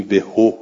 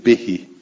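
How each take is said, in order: First: بهو said with a damma ending, "bihu"; hypothetical form of به; final "hu". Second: بهی said with a kasra ending, "bihi"; recited form of به; final "hi". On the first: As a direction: end بهو on a "u" sound. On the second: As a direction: end بهی on an "i" sound. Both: Shown as a demonstration.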